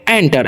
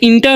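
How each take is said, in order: First: The word begins with an 'en' sound. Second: The word begins with an 'in' sound. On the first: The speaker calls it right. "इसे हम लोग पढ़ते हैं एंटर" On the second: The speaker calls it wrong. "इसे इंटर नहीं पढ़ना है"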